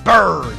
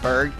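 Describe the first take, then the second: First: The name is said with a stylish flourish. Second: The name is said plainly, without flourish. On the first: The speaker calls it right. "Say it with with style" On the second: The speaker calls it wrong. "not just Berg"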